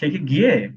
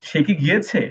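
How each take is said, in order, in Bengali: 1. শেষ শব্দটি তার শেষ অংশ হারিয়ে ফেলে। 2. শেষ শব্দটি পুরোটা বলা হয়।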